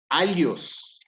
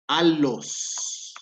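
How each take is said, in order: First: The double L is a palatal ly sound. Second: The double L is a plain L sound. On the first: The speaker calls it wrong. "no es alios" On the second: The speaker calls it right. "la palabra alos"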